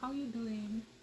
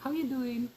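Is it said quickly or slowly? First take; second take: slowly; quickly. First: It is said slowly, with genuine interest. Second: It is said quickly, as a casual greeting.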